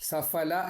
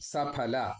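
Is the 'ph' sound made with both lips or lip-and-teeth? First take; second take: lip-and-teeth; both lips. First: The 'ph' is a lip-and-teeth 'f' sound. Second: The 'ph' is an aspirated 'p' with both lips. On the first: The speaker calls it wrong. "സഫല എന്ന് പറയരുത്" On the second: The speaker calls it right. "സഫല എന്നാണ്"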